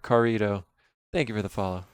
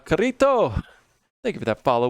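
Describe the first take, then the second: First: It is said in his plain accent. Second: It is said with a Spanish accent.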